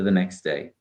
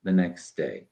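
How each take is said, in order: First: The T at the end of next is dropped. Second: The same.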